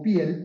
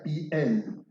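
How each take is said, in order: First: It sounds like the Spanish word for skin. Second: It is said as the Hebrew grammatical term. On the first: "como piel" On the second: "pero se pronuncia piel"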